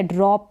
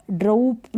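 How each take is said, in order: First: "ड्रॉप" with an open o; correct vowel. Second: "ड्रूप" with an oo vowel; wrong vowel. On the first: Teacher giving beginners the right reading, "ड्रॉप" with open o. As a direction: say "ड्रॉप" like drop. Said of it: "ड्रॉप पढ़ेंगे". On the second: Teacher warning beginners off a wrong reading, "ड्रूप" with oo. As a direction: say "ड्रूप" like droop. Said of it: "ड्रूप नहीं पढ़ सकते". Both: Shown as a demonstration.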